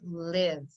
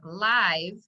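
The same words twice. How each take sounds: First: The vowel is a short I sound. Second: The vowel is a long I sound. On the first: "the I is making the short I sound for live" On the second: "it would be read as live"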